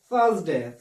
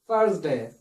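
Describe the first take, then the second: First: It is said in a British English accent. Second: It is said in an American English accent. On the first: "in the British English style" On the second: "in the American English style"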